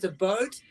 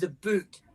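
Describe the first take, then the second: First: The vowel sounds like the one in boat. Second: The vowel sounds like the one in boot. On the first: This is the East Coast way. "The East Coast says a boat" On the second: This is the West Coast way. "The West Coast says a boot"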